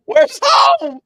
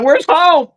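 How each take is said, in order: First: An even higher, thin mock-panicked wail; mock lost wail. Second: High, slightly louder mock panic call; mock lost call. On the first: Still lost in tall backyard grass, a very high hammed-up wail. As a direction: repeat the call higher still, hamming up being lost. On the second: Lost in his own backyard grass, a high mock-panicked call. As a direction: call out like someone lost in the grass, half joking.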